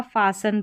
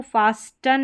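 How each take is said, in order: First: फासन with silent T; correct pronunciation. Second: फास्टन with the T sounded; wrong pronunciation. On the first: Teacher giving the right reading, फासन without T. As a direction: say फासन, s straight into n. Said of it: "फासन पढ़ेंगे". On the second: Teacher showing what not to read, फास्टन with spoken T. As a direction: say फास्टन with an audible t. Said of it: "फास्टन नहीं पढ़ा जाएगा". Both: Shown as a demonstration.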